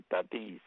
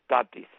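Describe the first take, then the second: First: Tatis stressed on the last syllable, "ta-TÍS"; American mispronunciation. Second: Tatis stressed on the first syllable, "TA-tis"; correct surname pronunciation. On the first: Commentator showing how Americans say the surname, Tatis stressed on its last syllable. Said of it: "los americanos le llaman". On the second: Commentator correcting the Americans' version, Tatis with firm first-syllable stress. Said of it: "El apellido es Tatis". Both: Shown as a demonstration.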